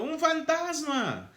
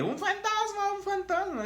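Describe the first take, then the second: First: High, slow terrified cry of ghost; high frightened "¡Un fantasma!". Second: Very high squealing mock scream; shrill mocking "¡Un fantasma, un fantasma!" squeal; mocking girlish scream. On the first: Acted. Disciples cry out in fear. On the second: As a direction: ham up the fishermen screaming like girls. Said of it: "gritando como niñas".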